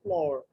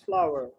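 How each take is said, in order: First: The word sounds like floor, rhyming with door. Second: The word sounds like flower, rhyming with power. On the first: The speaker calls it wrong. "It's not floor" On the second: The speaker calls it right. "It's flower"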